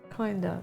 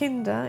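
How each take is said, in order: First: It is pronounced with English sounds. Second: It is pronounced with German sounds. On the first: "in English" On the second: "in German"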